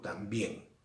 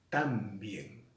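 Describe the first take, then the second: First: The stress is on the last syllable. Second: The stress is on the first syllable. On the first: The speaker calls it right. "digo también" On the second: The speaker calls it wrong. "Yo no digo tan bien"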